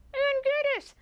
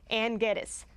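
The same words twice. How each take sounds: First: Blurted out much higher; sudden recall. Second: Said in the usual way. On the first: Real, not acted. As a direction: shoot the name out as it suddenly comes back.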